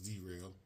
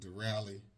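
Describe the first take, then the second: First: The name ends sounding like 'rail'. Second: The name ends sounding like 'rally'. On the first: The speaker calls it wrong. "I've been saying it wrong. I thought it was derail" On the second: The speaker calls it right. "but Durally"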